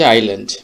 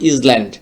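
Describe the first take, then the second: First: It is said with no 's' sound, 'eye-land'. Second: It is said with an 's' sound, 'is-land'. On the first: The speaker calls it right. "সঠিক উচ্চারণটা হচ্ছে" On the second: The speaker calls it wrong. "এটার উচ্চারণ যদি আমরা করি তাহলে হবে"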